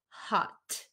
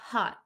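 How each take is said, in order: First: The final T sound is clearly released. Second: The final T sound is dropped. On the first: The speaker calls it wrong. "usually we don't pronounce it hot" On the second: The speaker calls it right. "This T is gone at the end of hot. We'll say hot"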